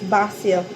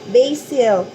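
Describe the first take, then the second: First: Basil is said with a British pronunciation. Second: Basil is said with an American pronunciation. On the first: "Sabi ni Tomas, no, it's basil. ... Sila British" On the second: "Sabi ko, basil. ... American way kasi ako yung English ko"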